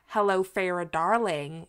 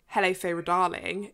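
First: It is said in a general American accent. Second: It is said in a posh British accent.

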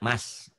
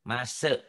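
First: The syllable ends cleanly without any added vowel. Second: The syllable ends with an added e vowel. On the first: The speaker calls it right. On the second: The speaker calls it wrong.

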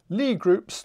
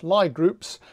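First: The first word sounds like 'lee'. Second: The first word sounds like 'lie'. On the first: The speaker calls it right. "it's pronounced Lie groups" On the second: The speaker calls it wrong. "not Lie groups"

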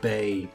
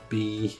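First: The name is said with an 'ay' vowel. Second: The name is said with an 'ee' vowel. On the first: The speaker calls it wrong. "B or Bay?" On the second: The speaker calls it right. "We're just gonna call it B"

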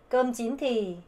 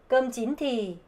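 The two takes are said the same way.

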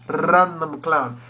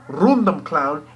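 First: The R is rolled with a trill. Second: The R is said plain, without a roll. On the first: The speaker calls it right. "You roll the R" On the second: The speaker calls it wrong. "Not random clown"

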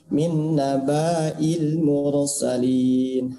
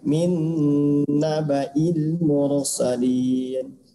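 First: The vowel after the b is drawn out long. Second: The vowel after the b is kept short. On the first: The speaker calls it wrong. "Tidak boleh" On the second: The speaker calls it right. "Harus pendek"

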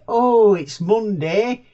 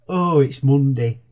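First: It is said in an excited, upbeat tone. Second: It is said in a gloomy, reluctant tone.

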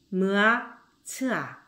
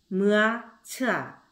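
The two takes are said the same way.

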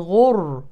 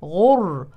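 Both takes have the same delivery.

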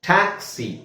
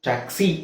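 First: The stress is on the first syllable. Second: The stress is on the second syllable. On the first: The speaker calls it right. "Taxi ಅಂತ ಹೇಳ್ತಾ ಇದ್ದೀನಿ" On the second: The speaker calls it wrong. "Taxi ಅಂತ ಹೇಳ್ತಾ ಇಲ್ಲ"

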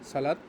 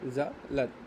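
First: The word begins with an s sound. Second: The word begins with a z sound. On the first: The speaker calls it wrong. "সালাত না" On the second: The speaker calls it right. "জয়ের মতো উচ্চারণটা হবে"

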